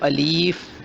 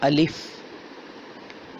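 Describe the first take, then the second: First: The second vowel is drawn out long. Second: The second vowel is kept short. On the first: The speaker calls it wrong. "कुछ लोग इसको अलीफ पढ़ते हैं, ऐसे नहीं पढ़ना" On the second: The speaker calls it right. "इसको पढ़ना है अलिफ"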